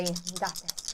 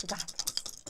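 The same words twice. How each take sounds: First: Said in the usual way. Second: Whispering. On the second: Real, not acted. Repeated as a hushed pep talk.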